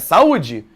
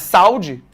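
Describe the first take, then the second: First: The stress falls on the separate 'u'. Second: The stress falls on the 'au' diphthong. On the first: The speaker calls it right. "é saúde" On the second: The speaker calls it wrong. "Não é saúde"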